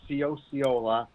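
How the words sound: The name has an English-style pronunciation. "the anglicized way"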